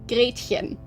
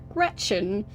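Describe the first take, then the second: First: The name is said with a German pronunciation. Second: The name is said with an English pronunciation. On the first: The speaker calls it right. "in German you pronounce that Gretchen" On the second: The speaker calls it wrong. "that sounds more like an illness than someone's name"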